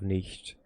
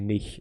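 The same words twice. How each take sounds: First: It ends with a clear T sound, standard-style. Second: It ends without a T sound, Berlin-style.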